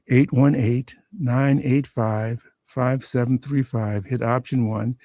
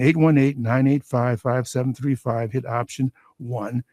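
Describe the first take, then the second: First: The number is read at a slower pace. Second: The number is read at a normal, quicker pace.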